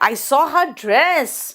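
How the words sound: The stress falls on the word dress. It was the dress that was seen. "Dress पे emphasise किया तो समझ में आ गया अच्छा ड्रेस देखा।"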